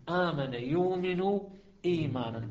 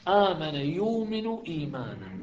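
First: آمن يؤمن إيمانا spelled out slowly for the class; slow, syllable by syllable. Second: Said in the usual way. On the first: Shown as a demonstration. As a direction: drag out آمن يؤمن word by word. (نطق بطيء مقطعًا مقطعًا)

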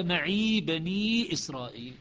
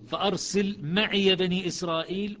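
First: "معي" as "maʕi", ya silent, recited slowly; Shu'ba recitation. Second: "معي" with open ya, "maʕiya", recited slowly; Hafs recitation. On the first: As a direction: recite "معي بني إسرائيل" with short ya. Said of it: "وشعبة". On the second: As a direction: recite "فأرسل معي بني إسرائيل" voicing the ya. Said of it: "في الأعراف مية وخمسة". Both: Shown as a demonstration.

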